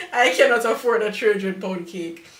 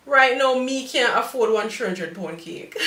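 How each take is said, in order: First: Said in the usual way. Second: Lively Jamaican Patois delivery. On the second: Real, not acted. Baker admitting her own budget to viewers, in Jamaican Patois. Slips into patois, then restates in standard English.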